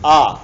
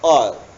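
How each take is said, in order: First: The vowel is held about twice as long. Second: The vowel is held very briefly, one beat. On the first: "थोड़ा सा ज्यादा करते हैं तो दीर्घ ना दो सेकेंड वाला" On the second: "अ एक मात्रिक एक सेकेंड वाला"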